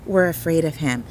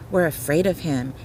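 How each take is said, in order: Both takes have the same delivery.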